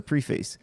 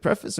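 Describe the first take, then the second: First: "preface" said as PREE-face; long ee, full "face" in "preface". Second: "preface" said as PREF-iss; short e and reduced second syllable in "preface". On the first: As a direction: say "preface" as pre plus face. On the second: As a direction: say "preface" to rhyme its start with "ref". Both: Shown as a demonstration. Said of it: "is it preface or preface".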